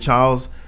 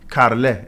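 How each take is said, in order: First: The name has an English pronunciation. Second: The name has a Swedish pronunciation. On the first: "in English we say Charles" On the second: "When I got to Sweden, they call me Carle"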